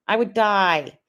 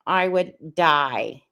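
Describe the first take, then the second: First: Said in the usual way. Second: Slow, drawn-out "I would die". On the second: Shown as a demonstration. Host imagining the wheelchair goodbye, drawn-out slow. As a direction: stretch each word of "I would die" out slowly.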